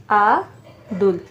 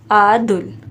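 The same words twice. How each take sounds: First: आदुल slowly split into आ, pause, दुल; teacher sounding out आदुल in two pieces; syllable by syllable. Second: Said in the usual way. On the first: Shown as a demonstration. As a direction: hold आ, then a separate दुल. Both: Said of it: "लिखना है".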